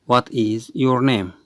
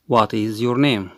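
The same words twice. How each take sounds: The two takes are said the same way.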